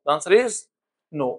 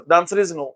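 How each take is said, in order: First: "The answer is" rising, then a beat of silence before "no"; dramatic pause. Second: Said in the usual way. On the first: Shown as a demonstration. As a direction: hold a pause before landing on "no".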